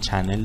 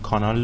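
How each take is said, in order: First: It is said the English way, as channel. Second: It is said the Persian way, as kanal.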